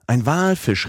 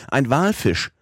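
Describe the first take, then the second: First: Walfisch called even higher, falling; repeated excited cry. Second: High, falling call of Walfisch; excited cry. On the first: Professor repeats the alarm, higher excited call. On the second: Professor spots a whale, excited high call. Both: A narrator's reading. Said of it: "rief darauf der Professor".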